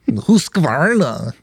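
The name is said in an imitated Swedish accent.

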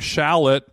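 It is said the American way.

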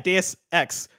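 The two words are clearly separated with force. It cannot be misheard. The speaker calls it right. "I have to put the extra like umph into the pronunciation"

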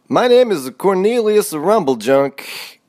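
It is said in an exaggerated put-on voice.

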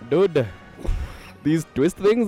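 It is said in a put-on Indian accent.

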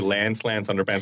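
Said in an American accent, with the rhyme. The speaker calls it right. "in the American accent, it'd be Lance underpants with rhymes"

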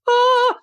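It is a high, light head voice.

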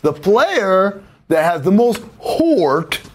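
Heart is said in a West Coast accent. "as they say on the West Coast"

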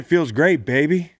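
It is said in an off, awkward tone. The answer came across as strange or insincere. The speaker calls it wrong. "his tone was off"

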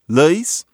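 The vowel is drawled into an eye-like diphthong.

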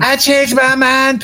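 It is a put-on young girl's cartoon voice. "I got to do a Patty Mayonnaise voice"

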